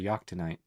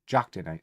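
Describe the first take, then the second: First: The first sound is soft. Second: The first sound is hard. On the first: The speaker calls it wrong. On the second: The speaker calls it right.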